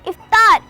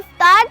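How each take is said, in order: First: The first vowel is a short 'i' sound. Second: The first vowel is an open 'a' sound. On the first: The speaker calls it right. "अलिफ के नीचे ज़ेर है, ज़बर नहीं है" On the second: The speaker calls it wrong. "जिसको हम आम तौर पर अफ्तार तलफ़ुज़ करते हैं"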